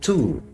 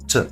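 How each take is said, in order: First: The word is said fully with a clear vowel. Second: The word is reduced to a light t sound. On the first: The speaker calls it wrong. "not to" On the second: The speaker calls it right. "we slightly pronounce the t"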